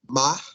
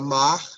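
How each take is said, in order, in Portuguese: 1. O R final soa como um h aspirado. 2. O R final é forte e bem pronunciado. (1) "como majota" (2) "um R mais pronunciado, mais forte"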